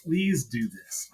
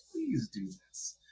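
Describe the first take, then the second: First: Said in the usual way. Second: Much softer, high, slow "Please do this" as a longing plea; slow, soft and high, drawing out "Please"; begging wish. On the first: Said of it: "I was like". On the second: Retold or imitated. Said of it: "but I was like".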